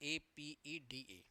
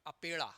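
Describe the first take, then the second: First: एपीईडीए spelled out slowly, each letter A P E D A said apart; slow careful letter-by-letter reading. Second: अपेड़ा said as one word, a-PE-ḍa with a hard retroflex ड़; candidate's mistaken blended अपेड़ा; wrong reading. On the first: Shown as a demonstration. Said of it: "abbreviation पूरा बोलिए". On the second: Retold or imitated. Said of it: "एक अभ्यर्थी इसको पढ़ रहा था".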